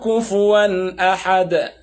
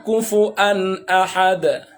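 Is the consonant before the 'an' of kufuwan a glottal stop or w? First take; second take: w; glottal stop. First: The word has a w sound before 'an'. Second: The word has a glottal stop before 'an'. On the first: This is one narrator's reading. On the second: This is the other narrator's reading.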